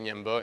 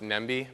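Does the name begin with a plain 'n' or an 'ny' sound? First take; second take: ny; plain n. First: The name begins with an ny sound. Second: The name begins with a plain n sound. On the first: This is how people actually say it. The speaker calls it right. "but you say Ñemby" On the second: This is how the spelling seems to read. The speaker calls it wrong. "It looks like it's uh, pronounced Nembi"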